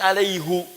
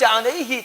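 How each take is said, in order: First: The word ends with an 'oo' vowel. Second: The word ends with an 'ee' vowel. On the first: This is a special reading found in one verse. "ada satu ayat yang dibaca dengan alaihu" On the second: This is the usual reading of the written word. "Anda bisa baca alaihi"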